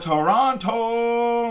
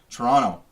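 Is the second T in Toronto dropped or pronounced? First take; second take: pronounced; dropped. First: The second T is clearly pronounced. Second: The second T is dropped entirely.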